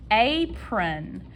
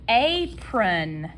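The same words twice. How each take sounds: The two takes are said the same way.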